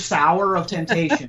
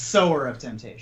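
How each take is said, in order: First: The first word rhymes with 'hour'. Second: The first word rhymes with 'lower'. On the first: The speaker calls it wrong. "I forgive you for your sour of temptation" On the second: The speaker calls it right. "it's sower of temptation"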